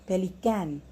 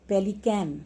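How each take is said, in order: The two takes are said the same way.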